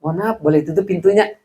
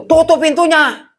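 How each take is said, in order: First: Polite way to ask to shut the door; polite request. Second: Barked order. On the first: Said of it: "Tapi kalau". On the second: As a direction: snap the order at him. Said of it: "Kalau ditinggikan volumenya". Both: Retold or imitated.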